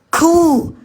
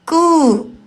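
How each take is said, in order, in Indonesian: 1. Bunyi k dilepaskan dengan hembusan napas yang berat. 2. Bunyi k dilepaskan hanya dengan hembusan napas yang ringan.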